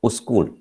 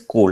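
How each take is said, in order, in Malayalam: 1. s ശബ്ദത്തിന് മുമ്പ് ഒരു അധിക സ്വരാക്ഷരം വരുന്നു. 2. വാക്ക് നേരിട്ട് s ശബ്ദത്തിൽ തുടങ്ങുന്നു. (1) "pronounce it as ഉസ്കൂൾ" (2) "instead of saying സ്കൂൾ"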